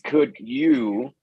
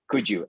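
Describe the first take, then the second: First: The d and y are said as separate sounds. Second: The d and y blend into a j sound. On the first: "but that would be not every day" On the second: "as if it were one single word"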